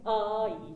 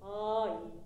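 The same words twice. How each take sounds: First: あい hit hard and loud at the onset; hard attack. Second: あい started gently, no hard attack; soft attack. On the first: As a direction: strike the あ of あい like a hammer. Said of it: "あいじゃなくて". (叩きつけるような強いアタックのあい) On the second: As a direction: let あい begin softly and blend. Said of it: "こういう言い方ね". (アタックの弱い柔らかいあい) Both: Shown as a demonstration.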